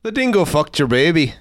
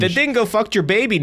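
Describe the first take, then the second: First: Put-on Irish guy accent; lilting imitation Irish accent. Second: Put-on layered Irish accent. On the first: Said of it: "an Irish guy". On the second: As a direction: pretend badly to be Irish, hammed up.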